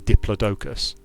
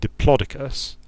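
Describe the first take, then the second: First: It is said with British English word stress. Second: It is said with American English word stress. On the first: The word sounds goofy. "In in U K English, we say diplodocus, which sounds goofy" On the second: The word sounds more serious. "the American pronunciation diplodocus puts the emphasis quite differently"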